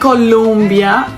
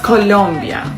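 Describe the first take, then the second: First: The second syllable sounds like 'lum'. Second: The second syllable sounds like 'lom'. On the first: The speaker calls it wrong. "Don't say Colombia" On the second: The speaker calls it right. "it's Colombia"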